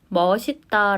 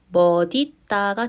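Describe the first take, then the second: First: The final consonant links as an s sound. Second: The final consonant links as a d sound. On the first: "그대로 연음해서" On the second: "디귿으로 바꾼 다음에 연음을 해주어야 합니다"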